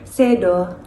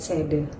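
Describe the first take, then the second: First: The word ends with an 'o' sound. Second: The word ends with an 'e' sound. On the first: This is the Javanese pronunciation. "ke dalam bahasa Jawa itu artinya sedo" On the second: This is the Balinese pronunciation. "Kita bawa ke bahasa Bali artinya juga sama, sede"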